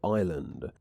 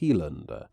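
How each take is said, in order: First: It starts with a plain 'eye' vowel. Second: It starts with a Tristanian 'hee' sound.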